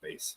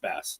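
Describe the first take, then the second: First: The vowel rhymes with 'face'. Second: The vowel rhymes with 'mass'. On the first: It names the robot that fights Mega Man. The speaker calls it wrong. "not bass ... that's a different kind of bass" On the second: It names the fish. The speaker calls it right. "it's bass"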